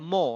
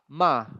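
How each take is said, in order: First: The vowel sounds like 'oh'. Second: The vowel sounds like 'ah'. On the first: The speaker calls it wrong. "is not mo" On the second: The speaker calls it right. "It's like a kind of ah ma"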